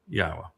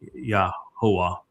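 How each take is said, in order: First: The name is said with two syllables. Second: The name is said with three syllables. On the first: The speaker calls it right. "the simple truth is it's Yahweh" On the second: The speaker calls it wrong. "that is incorrect"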